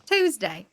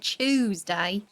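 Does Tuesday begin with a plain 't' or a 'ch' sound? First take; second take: t; ch. First: The word begins with a plain t sound. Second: The word begins with a ch sound. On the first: "That's the right way to say it" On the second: "but the English say Tuesday"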